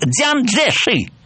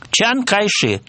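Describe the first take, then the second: First: The name is said as Dzyan Tszeshi. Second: The name is said as Chan Kaishi. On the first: This is how the name is said in the capital. "если он приезжает в Пекин... он звучит" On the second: This is how the name is said in the south. "это гуандунское произношение"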